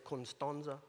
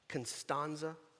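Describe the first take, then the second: First: The name is said in a Moldovan manner. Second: The name is said in a Mississippi accent.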